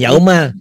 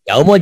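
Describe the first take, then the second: First: The vowel before the final L is a. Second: The vowel before the final L is u. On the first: The speaker calls it wrong. "jangan yaumal" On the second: The speaker calls it right. "Ini kan domah berbunyi u ya"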